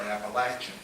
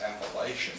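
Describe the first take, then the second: First: Appalachian with a short "latch" vowel in the middle; short A pronunciation. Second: Appalachian with a long "lay" in the middle; long A pronunciation. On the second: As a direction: say Appalachian as "appa-LAY-shun". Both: Shown as a demonstration. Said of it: "whether it's Appalachian or Appalachian".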